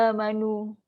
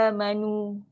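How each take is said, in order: Both takes have the same delivery.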